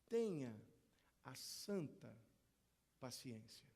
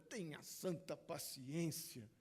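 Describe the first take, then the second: First: It sounds calm, sincere and reverent. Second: It sounds exasperated and out of patience. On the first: It urges holding on to the holy patience God gives. "se nós mudarmos a entonação dessa frase, muda tudo" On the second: The speaker has run out of patience. "a gente fala isso aqui quando a paciência já acabou"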